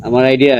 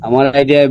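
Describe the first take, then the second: No difference in how they are said.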